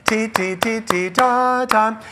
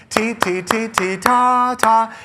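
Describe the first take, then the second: No difference in how they are said.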